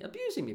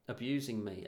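First: "Abusing me" jumping very high in pitch; high-pitched stress on "Abusing"; indignant emphasis. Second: Said in the usual way. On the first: Real, not acted. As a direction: squeal the repeat of "Abusing me" for emphasis. Repeats the word for emphasis.

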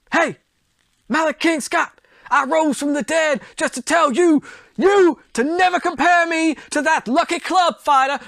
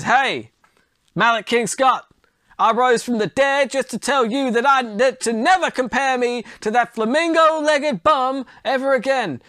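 First: Much higher, louder boxer trash-talk voice; Muhammad Ali impression. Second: Raised-pitch boxer voice, not really Ali; a loose Apollo Creed impression, pitched up; Apollo Creed-ish voice. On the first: Ali from beyond the grave taunting Malik King Scott, high brash trash talk. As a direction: hype the taunt up like a showboating champ. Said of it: "trying to do a Muhammad Ali impression". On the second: Muhammad Ali rising from the dead to taunt Malik King Scott, pitched-up Creed-like voice. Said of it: "That sounded more like Apollo Creed".

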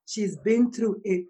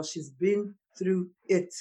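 First: Said in the usual way. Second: "she's been through it" said slowly and much softer, leaning on "it"; quiet weighty repeat. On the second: Real, not acted. Host stressing the guest's hardship, slow and soft. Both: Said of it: "Let me tell y'all".

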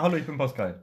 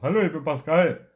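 First: Said in the usual way. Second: A light mock of his friend's voice, a bit louder; imitating his voice. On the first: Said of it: "Sag mal". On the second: Teasing his friend by copying his voice. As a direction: lightly put on his buddy's voice. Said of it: "Du hast deine Stimme dort".

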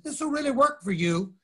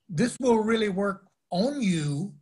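First: Said in the usual way. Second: ON set apart and stretched in "work ON you"; stress on ON. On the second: Shown as a demonstration. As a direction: lean on the word ON to correct "for". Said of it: "Christianity's claim is not that".

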